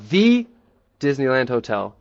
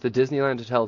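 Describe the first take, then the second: First: The word 'the' is said with strong stress. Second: The word 'the' is said lightly, without stress.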